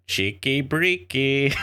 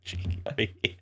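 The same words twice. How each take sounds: First: Slow, drawn-out mock Russian accent, pitched up; bad Russian accent. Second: Breathy, near-whispered British take on "Cheeky breeky"; lazy UK voice actor. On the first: Podcast host joking about game voice lines, bad Russian accent. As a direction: ham up a bad Russian accent on both words. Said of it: "In really bad Russian accent". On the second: Retold or imitated. Host mocking a random UK voice actor, half-whispered British accent. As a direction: toss off "Cheeky breeky" like a hired Brit reading a line. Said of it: "some random, like, U K voice actor".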